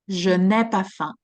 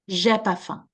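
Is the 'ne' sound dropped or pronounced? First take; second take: pronounced; dropped. First: The 'ne' is pronounced, making it slightly longer. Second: The 'ne' is dropped, making it slightly shorter. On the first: "the ne is pronounced, but it's it's taking a little bit, it's more time" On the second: "the ne is removed"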